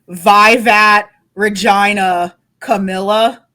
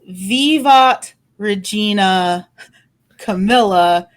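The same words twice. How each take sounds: First: It is said in English-accented church Latin. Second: It is said as plain intended Latin.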